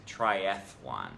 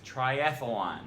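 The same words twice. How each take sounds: First: "triathlon" as tri-ATH-lon, th straight into l; three syllables. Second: "triathlon" said tri-ATH-uh-lon with an added uh; extra syllable. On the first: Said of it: "It's actually just". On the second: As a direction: slip an uh between th and l in "triathlon". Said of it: "add a syllable that isn't there". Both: Shown as a demonstration.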